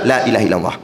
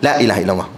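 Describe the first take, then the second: The two takes are said the same way.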